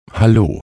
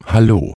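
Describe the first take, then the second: No difference in how they are said.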